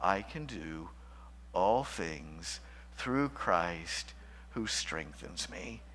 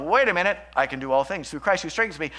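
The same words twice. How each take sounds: First: Slow, soft, low and deliberate; calm affirmation. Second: Quick, louder, self-satisfied misuse of the verse; mock prosperity preacher. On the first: Shown as a demonstration. Preacher showing his quiet affirmation, slow and soft. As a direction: let each word of the verse settle. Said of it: "simply repeat Paul's great affirmation". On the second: Preacher mocking name-it-and-claim-it believers, brash and fast. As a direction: rattle the verse off like a get-rich formula. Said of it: "name it and claim it theology".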